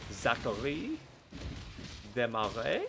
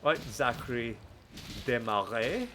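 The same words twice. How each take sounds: First: Name said the French way; French accent. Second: Said in the usual way. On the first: Pretend. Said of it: "I have been doing French on, uh, a Duolingo". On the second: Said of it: "I don't know what came over me".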